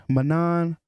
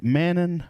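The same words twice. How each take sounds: First: "Manan" with a reduced first syllable, "muh-NAHN"; trying pronunciation. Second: "Manan" with a flat first vowel as in "man"; trying pronunciation. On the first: Unsure of a fighter's name, second trial pronunciation. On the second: Unsure of a fighter's name, first trial pronunciation. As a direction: say "Manan" starting like the word "man", higher. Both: Shown as a demonstration. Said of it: "you should say Manan".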